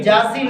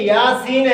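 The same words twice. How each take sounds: First: "جاسین" with j for y; wrong-example j opening "جاسین"; mispronunciation. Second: Slow "یاسین" with y; careful y glide opening "یاسین"; correct pronunciation. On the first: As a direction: say "Jaa-seen" for "جاسین". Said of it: "جاسین نہیں ہے". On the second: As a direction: stretch "Yaa-seen" for "یاسین". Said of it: "یہ یاسین ہے". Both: Shown as a demonstration.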